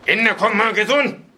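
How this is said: The reply is said harshly and sternly.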